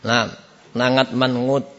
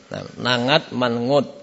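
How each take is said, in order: No difference in how they are said.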